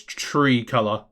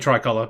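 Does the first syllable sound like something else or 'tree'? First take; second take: tree; something else. First: The first syllable sounds like 'tree'. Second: The first syllable does not sound like 'tree'. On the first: This follows the Spanish pronunciation. "I think it's Tree Color. Because I think in in Spanish it would be tree" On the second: This is the speaker's own habitual pronunciation. "that's the way I would pronounce it myself"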